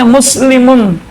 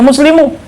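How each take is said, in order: First: The word ends with a final n sound. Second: The word ends on a vowel, without n. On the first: The speaker calls it right. "Harus baca muslimun karena isim mufrad" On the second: The speaker calls it wrong. "jangan baca muslimu, salah ke muslimu"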